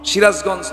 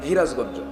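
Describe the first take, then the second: First: The word begins with an s sound. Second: The word begins with an h sound.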